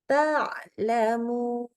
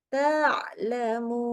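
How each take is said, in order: No difference in how they are said.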